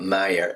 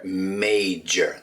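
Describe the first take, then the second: First: The middle consonant is not a clear 'j' sound. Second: The middle consonant is a clear 'j' sound. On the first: The speaker calls it wrong. "not major" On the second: The speaker calls it right. "that J in the middle"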